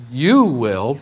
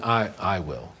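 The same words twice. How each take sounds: First: "you" lifted, the rest light; stress on you. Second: Soft "I, I will", the "I" leaned on; stress on I. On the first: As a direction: lean on "you" in "you will". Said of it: "So it's from". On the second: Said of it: "to God saying". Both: Shown as a demonstration.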